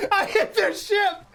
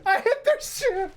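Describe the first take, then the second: First: High, slow words through laughter; giggling confession; laugh-crying at the mistake. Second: Higher, slow, near tears from laughing; losing it; wheezing repeat; laughing harder. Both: Real, not acted. Laughing at own blunder.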